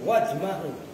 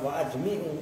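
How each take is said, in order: First: The vowel after the m is a. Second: The vowel after the m is i. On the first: The speaker calls it right. "tapi wajma'u" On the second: The speaker calls it wrong. "bukan bukan wajmi'u"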